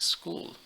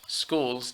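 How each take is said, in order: First: The final s sound is left off. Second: The final s sound is clearly pronounced. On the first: The speaker calls it wrong. "don't say it school" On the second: The speaker calls it right. "pronounce the last syllable or sound of each word"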